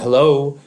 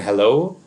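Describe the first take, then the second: First: It is a sarcastic questioning tone. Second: It is a sincere questioning tone. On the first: "a somewhat sarcastic question" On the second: "It can be a question"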